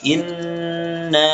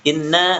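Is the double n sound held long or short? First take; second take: long; short. First: The n sound is held long. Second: The n sound is cut short. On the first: The speaker calls it right. "Tahan dulu baru dipanjangkan" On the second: The speaker calls it wrong. "Inna tidak langsung inna enggak"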